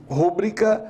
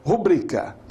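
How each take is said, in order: First: "rúbrica" stressed on the first syllable, RU-bri-ca. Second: "rubrica" stressed on the middle syllable, ru-BRI-ca. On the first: Teacher quoting what people often say, stress wrongly first. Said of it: "ao invés de rubrica". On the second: Teacher correcting what people say, stress in the middle. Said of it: "as pessoas dizerem rúbrica". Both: Shown as a demonstration.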